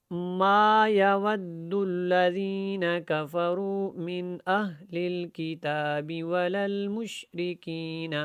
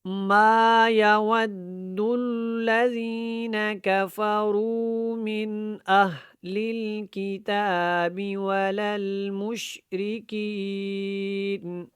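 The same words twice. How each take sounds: First: Simple slow chant, little tajweed; modest, straightforward recitation; plain Quran reading. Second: Stretched, careful tajweed chanting; proper tajweed recitation. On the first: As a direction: recite evenly without much elongation or ornament. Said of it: "زیادہ تجوید کے ساتھ نہیں پڑھوں گا". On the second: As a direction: recite with full elongations and held nasals. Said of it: "اچھے طریقے سے پڑھنے کی کوشش". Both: Shown as a demonstration.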